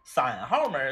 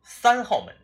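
First: Sān is said with a third tone, Liaoning-style. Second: It is said in standard Mandarin.

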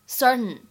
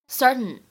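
First: The t is soft and released through the nose. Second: The t is soft and released through the nose.

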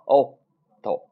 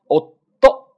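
First: The syllables flow weakly with no held stop. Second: A forceful held stop comes before the last syllable. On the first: The speaker calls it wrong. "不要哦到，你看后边这种是错误的，没劲儿" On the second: The speaker calls it right. "空一拍之后再爆发出来啊，哦到这种感觉"

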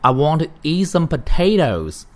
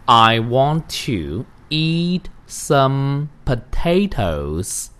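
First: The sentence is read at a faster pace. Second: The sentence is read at a slower pace.

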